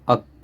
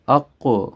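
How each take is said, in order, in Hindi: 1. अंतिम k सपाट रुकता है, कोई गूंज नहीं। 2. अंतिम k गूंज के साथ वापस उछलता है। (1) "अगर तो इको नहीं हम करते तो ये बेसिकली तो बनता है" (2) "इको के साथ पढ़ना है, आवाज़ को हरकत देनी है"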